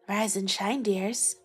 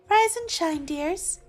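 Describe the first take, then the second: First: It is said in a lower-pitched voice. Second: It is said in a higher-pitched voice.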